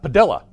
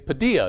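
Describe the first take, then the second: First: The double L is sounded as an L. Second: The double L is sounded as a Y. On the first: The speaker calls it wrong. "not Padilla" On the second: The speaker calls it right. "I say Padilla"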